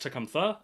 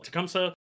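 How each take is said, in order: First: The middle consonant is a 'th' sound. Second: The middle consonant is an 's' sound. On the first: This is probably the more authentic pronunciation. "I think it's like pronounced Tecumtha, actually" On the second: This is the familiar in-game pronunciation. "I'm going to continue pronouncing it Tecumseh"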